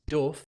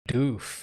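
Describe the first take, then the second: First: The vowel is short, like in 'cuff'. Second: The vowel is long, like in 'food'. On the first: The speaker calls it wrong. "I think it's actually wrong" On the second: The speaker calls it right. "I'm getting the the German nod"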